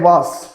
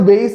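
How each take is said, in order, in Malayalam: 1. സ്വരം 'father' യിലെ 'ah' പോലെ തോന്നും. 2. സ്വരം 'day' യിലെ 'ay' പോലെ തോന്നും. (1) "അതിന്റെ ശരിയായ പ്രൊനൗൺസിയേഷൻ എന്താ? ആ വാസ് എന്നുള്ളതാണ്" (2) "വെയ്സ് എന്നുള്ളത് മിസ്പ്രൊനൗൺസ്ഡ് ആവുന്നതാണ്"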